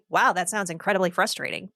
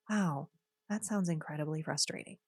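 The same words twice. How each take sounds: First: It sounds flat and dismissive. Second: It sounds warm and sincere.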